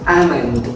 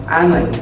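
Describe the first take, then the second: The two takes are said the same way.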